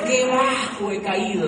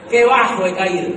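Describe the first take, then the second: First: Slow, drawn-out mock lament on qué. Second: Qué bajo he caído cried out much louder, qué hit hard; loud mock cry. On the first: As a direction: stretch it out like a mock sigh over himself. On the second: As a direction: belt it out as a theatrical outcry of shame. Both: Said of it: "decía mi corazón".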